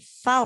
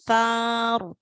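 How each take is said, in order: First: The vowel is cut short. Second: The vowel is drawn out long. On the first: The speaker calls it right. "sar langsung" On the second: The speaker calls it wrong. "nggak boleh dipanjangkan"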